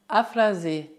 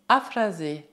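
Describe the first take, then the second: No difference in how they are said.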